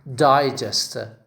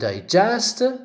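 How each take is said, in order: First: The stress is on the first syllable. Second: The stress is on the second syllable. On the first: "the first syllable, receives the stress" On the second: "where the second part receives the stress"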